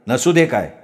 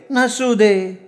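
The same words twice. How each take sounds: First: Said in the usual way. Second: High, put-on woman's voice; coaxing sweetheart. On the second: A narrator's reading. Woman dismissing his lack of swimwear, high coaxing. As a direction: brush it off in a high pitch.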